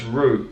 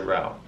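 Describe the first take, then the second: First: It is said with a British pronunciation. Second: It is said with an American pronunciation. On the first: "It's route" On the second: "Americans say route"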